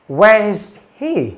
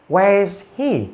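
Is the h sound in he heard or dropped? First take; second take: heard; heard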